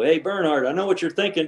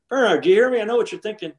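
First: Slightly raised, casual needling; retold teasing call. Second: Much higher, insistent needling; retold insistent call. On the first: Golfer calling to his playing partner mid-round, teasing. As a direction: call over to a rival, imitating yourself. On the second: Golfer calling the partner who ignored him, insistent and high. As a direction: call for his attention, pitched up high.

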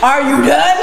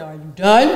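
First: Raised, laughing near-shout "Are you done?"; loud laughing "Are you done?"; louder repeat. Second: Asked through a laugh, low-key; half-laughing "Are you done?"; laughing question. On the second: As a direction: chuckle it out lightly. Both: Retold or imitated. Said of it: "And I said".

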